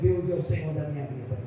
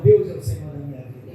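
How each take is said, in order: First: It is said plainly, without special force. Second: It is said with strong conviction.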